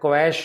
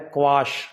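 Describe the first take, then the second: First: The vowel sounds like the 'a' in cat. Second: The vowel sounds like the 'a' in father. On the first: The speaker calls it wrong. "ज़्यादातर मैंने देखा है क्वैश बोलते हैं" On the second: The speaker calls it right. "सही उच्चारण है क्वाश"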